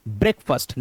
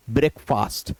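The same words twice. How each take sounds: First: ब्रेकफास्ट said "brek-fust", short second vowel; correct pronunciation. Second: ब्रेकफास्ट with a long "faast"; wrong pronunciation. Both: Shown as a demonstration. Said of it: "ना कि".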